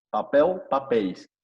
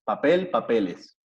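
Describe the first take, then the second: First: Papel ending in "eu", pitched up and loud; Portuguese pronunciation. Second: Papel with a clear final L, slowly; slow Spanish papel, papeles, every L sounded; Spanish pronunciation. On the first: Teacher models Portuguese after Spanish, papel ending in "eu". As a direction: papel as "papeu", then papéis falling as "papeis". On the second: Teacher compares languages, papel said the Spanish way with L. Spanish words beside Portuguese ones. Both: Shown as a demonstration.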